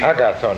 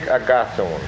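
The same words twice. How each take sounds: First: The stress is not on the second syllable. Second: The stress is on the second syllable. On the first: This is the traditional way of saying the name. "I think we have to say, I think that's a tradition" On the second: This is how the name is said in Greek. "the accent has to always in Greek to be on the second syllable"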